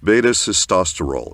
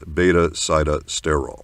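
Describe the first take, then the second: First: The middle part sounds like 'sis', as in cyst. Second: The middle part sounds like 'sigh' or 'sit'. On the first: The speaker calls it right. "It is beta-cystosterol" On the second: The speaker calls it wrong. "It is not beta-sitosterol"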